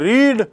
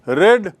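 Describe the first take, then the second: First: The vowel is long, like 'reed'. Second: The vowel is short, like 'red'. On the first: The reading happens in the present. "So रीड" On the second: The reading happened in the past. "लेकिन उच्चारण रहता है रेड"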